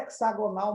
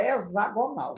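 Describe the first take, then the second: First: "hexagonal" with the x said as ks, hek-sa-go-nal; x sounded as ks. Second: "hexagonal" with the x said as z, e-za-go-nal; x sounded as z. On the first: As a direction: say "hexagonal" with a ks sound for the x, the accepted variant. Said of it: "pode chamar hexagonal". ("hexagonal" com o x pronunciado como ks) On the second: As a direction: say "hexagonal" with a clear z sound, the correct form. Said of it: "o correto mesmo é chamar hexagonal". ("hexagonal" com o x pronunciado como z) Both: Shown as a demonstration.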